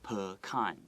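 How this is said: It is said with an American pronunciation. "In English, American English, we pronounce that word pecan"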